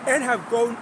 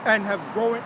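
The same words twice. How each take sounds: The two takes are said the same way.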